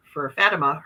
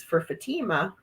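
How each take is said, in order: First: Fatima with stress on the first syllable, "FAT-uh-ma"; corrected pronunciation of Fatima. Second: Fatima with stress on the middle, "fa-TEE-ma"; first pronunciation of Fatima. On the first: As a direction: say Fatima with a short flat "a" up front and a weak middle. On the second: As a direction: say Fatima with a long "ee" in the second syllable. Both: Real, not acted.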